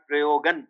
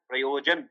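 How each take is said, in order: First: The consonant before the last syllable is 'g'. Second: The consonant before the last syllable is 'j'. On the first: The speaker calls it wrong. "Not प्रयोगन" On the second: The speaker calls it right. "गन नहीं है, ज है"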